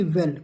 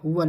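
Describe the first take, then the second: First: "वेल" with an open e, like English "well"; wrong pronunciation. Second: "वल" with a schwa, like vul; correct pronunciation. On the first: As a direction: say "वेल" with a clear e vowel. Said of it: "ना कि वेल". ("वेल" में साफ़ ए की आवाज़) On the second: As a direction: say "वल" slowly with a short uh vowel. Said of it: "वल, ना कि वेल". ("वल" में अ की आवाज़, ए नहीं) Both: Shown as a demonstration.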